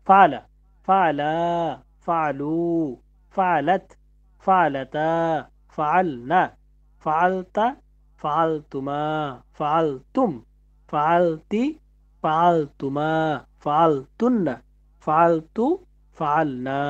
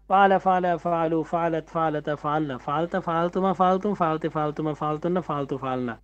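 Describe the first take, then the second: First: The list is recited at a slower pace. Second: The list is recited at a quicker pace.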